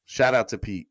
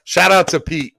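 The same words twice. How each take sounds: First: Said in the usual way. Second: High, loud hype shout to Pete. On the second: Real, not acted. Streamer hyping up donor Pete, loud shout. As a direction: yell the shout-out like a hype man.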